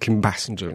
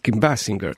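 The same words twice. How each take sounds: First: The surname is said the popular local way. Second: The surname is said the original way. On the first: The speaker calls it wrong. "bardzo często ludzie mówią Kim Basinger" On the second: The speaker calls it right. "A to jest Kim Basinger"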